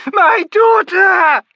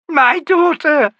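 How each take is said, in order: First: Even higher, louder, slower shout; mother's anguish peaking in a shout; full shriek. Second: High, loud, slow wail; terrified mother crying for her daughter; anguished cry. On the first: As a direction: let it break into a full scream. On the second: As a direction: cry the words out, drawn long. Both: A narrator's reading. Myby in anguished terror.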